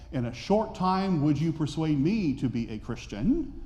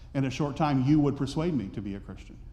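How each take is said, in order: First: It is said as a question. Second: It is said as a statement.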